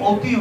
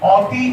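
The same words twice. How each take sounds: First: The first vowel is a rounded 'o' sound. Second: The first vowel is an open 'a' sound.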